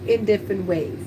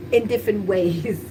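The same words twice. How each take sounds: The two takes are said the same way.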